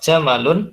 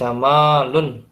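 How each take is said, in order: First: The vowel after the m is kept short. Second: The vowel after the m is held long. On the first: It means camel. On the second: It means beauty.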